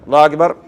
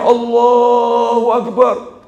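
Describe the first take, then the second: First: It is said in a plain, routine way. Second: It is said with deep, pleading feeling. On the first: The prayer is valid but lacks feeling. The speaker calls it wrong. "Sementara kita" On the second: The speaker truly begs forgiveness for the dead. The speaker calls it right. "Jadi takbirnya itu betul-betul, ya Allah ampuni dia"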